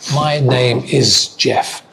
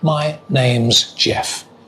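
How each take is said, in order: First: Name and is are said as separate words. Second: Name and is merge into one syllable.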